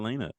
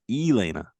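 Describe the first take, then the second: First: The opening E is said plainly, without emphasis. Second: The opening E is said with strong emphasis. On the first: This is the person as she used to be. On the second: This is the person who has grown and blossomed.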